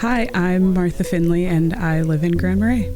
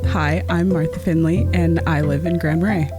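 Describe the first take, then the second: First: The speaker sounds shy and nervous. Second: The speaker sounds relaxed and confident.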